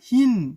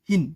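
First: The vowel is drawn out long. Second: The vowel is kept short. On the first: "এটার উচ্চারণ হওয়া উচিত ছিল হিন" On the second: "কিন্তু আমরা উচ্চারণ করি হিন ডিরেক্ট"

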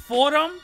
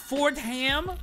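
First: The name is said the local way. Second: The name is said the mocked outsider way. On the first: The speaker calls it right. "it's pronounced Fordham" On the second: The speaker calls it wrong. "not Fordham"

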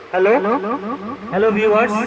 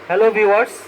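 First: The voice has an echo effect on it. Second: The voice sounds plain with no echo. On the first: "আগের মতো আমরা একটা ইকো sound পাবো" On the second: "ইকো অফ করে দিলে কিন্তু আমরা এখানে নর্মাল ভোকাল দিতে পারবো"

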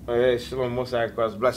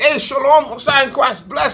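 First: The greeting sounds cold and curt. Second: The greeting sounds warm and sincere.

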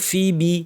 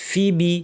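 Both takes have the same delivery.

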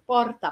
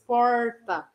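First: The R is trilled with the tongue tip. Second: The R is curled back, like English R. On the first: "a ponta da língua vibrando" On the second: "Falar aquele R caipira que parece o R do inglês"

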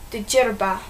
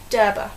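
First: The name starts with a DJ sound. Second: The name starts with a plain D sound. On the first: The speaker calls it wrong. "so you might want to pronounce it the Djerba, but it's not" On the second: The speaker calls it right. "it's Derba"

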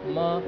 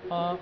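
First: The syllable is short and light, unstressed. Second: The syllable is short and light, unstressed.

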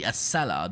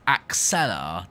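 First: The middle consonant sounds like s. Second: The middle consonant sounds like ks. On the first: The speaker calls it right. "But it's the Acela, not Axela" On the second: The speaker calls it wrong. "I used to pronounce it as Axela"

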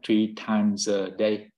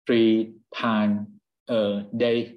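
First: It is said quickly, the s linked to a. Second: It is said slowly, each word separate.

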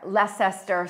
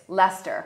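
First: The name is said with all its written syllables. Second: The name is said shortened, with fewer syllables. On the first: The speaker calls it wrong. "when I first came here" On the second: The speaker calls it right. "But it's Leicester"

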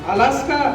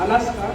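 First: It is asked with strong, shifted emphasis. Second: It is asked in a soft, affectionate tone. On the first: The meaning changes completely. "जर त्या वाक्यामध्ये आपण थोडासा जोर वेगळा दिला" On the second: A warm, caring welcome. "एखाद्याला जर प्रेमाला विचारायचं झालं तर आपण कसं विचारू शकतो"

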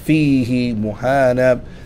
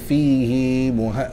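First: The final vowel of the first word is kept short. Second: The final vowel of the first word is elongated. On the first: The speaker calls it right. "we don't use the med, we don't extend it" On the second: The speaker calls it wrong. "We don't say"

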